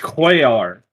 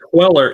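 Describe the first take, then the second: First: The middle consonant is said as a Y. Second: The middle consonant is said as an L. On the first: The speaker calls it right. "the two L's become a ya" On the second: The speaker calls it wrong. "It's not Queller"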